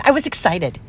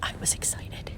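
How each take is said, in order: First: Said in the usual way. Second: I was excited, whispered; whispered confession. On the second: Real, not acted. Crafter admitting her joy to viewers, whispering. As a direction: let it slip out under your breath.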